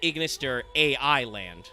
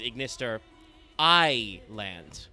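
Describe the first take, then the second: First: AI is spelled out as two letters. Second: AI is said as one syllable, eye. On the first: The speaker calls it wrong. "You're not supposed to pronounce this" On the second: The speaker calls it right. "the original Japanese pun, obviously, is"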